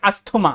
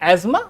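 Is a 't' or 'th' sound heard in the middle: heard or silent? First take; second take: heard; silent. First: A 'th' sound is heard in the middle. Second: No 'th' sound is heard in the middle. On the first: This is how people commonly say it. The speaker calls it wrong. "आम बोलचाल की भाषा में लोग बोलते हैं अस्थमा" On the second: This is the correct pronunciation. The speaker calls it right. "The correct pronunciation of this is एस्मा"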